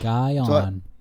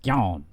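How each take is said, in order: First: The name is said at a slow, careful pace. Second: The name is said quickly, run together.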